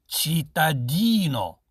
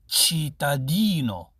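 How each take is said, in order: Both takes have the same delivery.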